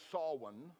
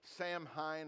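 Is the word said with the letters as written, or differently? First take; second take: differently; as written. First: Several letters are not sounded as they look. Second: Every letter is sounded as it looks. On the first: The speaker calls it right. "but it's really pronounced Samhain" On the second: The speaker calls it wrong. "it's spelled like it should be pronounced Samhain"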